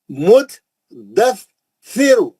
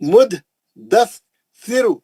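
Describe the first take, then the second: First: The word is split into three separate pieces. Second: The same.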